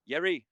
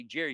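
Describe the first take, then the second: First: "Yeri" with a Y sound replacing the J; mispronounced Jerry. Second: Said in the usual way. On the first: Retold or imitated. Spanish-speaking cellmate greeting Jerry, "Yeri" with a Y. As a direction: say "Yeri", opening on Y as in yes. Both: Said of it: "they can't say Jerry".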